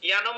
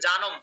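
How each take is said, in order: First: The word is said with Sanskrit-style pronunciation. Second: The word is said with Bengali-style pronunciation. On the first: "সংস্কৃত উচ্চারণ হবে" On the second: "ওটা হচ্ছে জানম"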